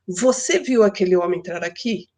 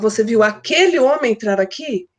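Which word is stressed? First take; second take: você; aquele homem. First: The emphasis falls on the word você. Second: The emphasis falls on the words aquele homem. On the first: The question is whether the listener saw it. "quero dar ênfase em você" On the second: The question is whether it was that particular man. "Eu quero saber se é aquele homem"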